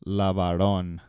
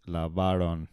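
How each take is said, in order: First: Lavaron with the stress on the last syllable, ron; stressing the final syllable of lavaron, the common mistake; wrong stress. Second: Lavaron stressed on the second to last syllable, va; correct stress. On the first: Teacher demonstrates the wrong stress on the last syllable of lavaron. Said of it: "people wanna put the accent on the last part". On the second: Teacher gives the right stress on the second to last syllable of lavaron. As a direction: lavaron with stress on va, not on ron. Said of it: "it's on the second to last". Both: Shown as a demonstration.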